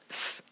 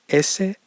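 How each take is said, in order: First: The s sound is plain and sharp. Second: The s sound leans toward sh. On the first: This is how it is said in Mexico. "estoy diciendo todas con el mismo sonido" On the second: This is how it is said in Spain. "ellos dirían S como un sonido más sh"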